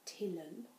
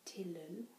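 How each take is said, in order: First: It is said in an English accent, L sounded. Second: The same.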